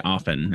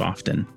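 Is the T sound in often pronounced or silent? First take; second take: silent; pronounced. First: The word is said with a silent T. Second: The word is said with a pronounced T. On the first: "I say often instead of often" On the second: "you leave the T in and often"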